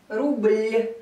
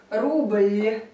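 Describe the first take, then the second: No difference in how they are said.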